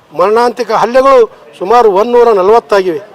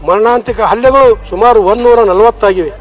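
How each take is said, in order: The two takes are said the same way.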